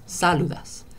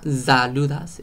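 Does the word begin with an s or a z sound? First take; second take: s; z. First: The word begins with a hissing s sound. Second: The word begins with a buzzing z sound. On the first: The speaker calls it right. "it's saludas" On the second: The speaker calls it wrong. "So it's not saludas"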